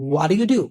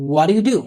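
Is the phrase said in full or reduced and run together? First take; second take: reduced; reduced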